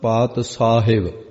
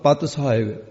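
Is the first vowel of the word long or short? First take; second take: long; short. First: The first vowel is long, like 'paa'. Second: The first vowel is short, like 'pa'.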